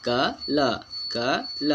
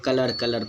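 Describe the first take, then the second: First: कलर as slow क ल, no final र; drawn-out क ल ending on an open vowel; correct silent-r pronunciation. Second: कलर said quickly with the final र sounded; कलर as one ordinary word, r and all; wrong everyday pronunciation. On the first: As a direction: split into क and ल, drop the r. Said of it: "इसको हम लोग पढ़ते हैं". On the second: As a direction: pronounce the r at the end of कलर. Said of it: "कलर गलत है". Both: Shown as a demonstration.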